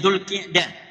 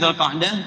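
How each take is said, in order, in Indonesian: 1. Vokal setelah q adalah i. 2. Vokal setelah q bukan i. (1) "Namanya Dzulqi'dah" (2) "Bukan Dzulqa'dah"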